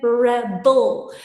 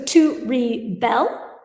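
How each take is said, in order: First: Rebel slowly as REB-el; stress on first syllable. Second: Rebel slowly as ri-BEL; stress on second syllable. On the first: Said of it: "So on the noun, the accent". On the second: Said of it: "there's a different pronunciation on those". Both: Shown as a demonstration.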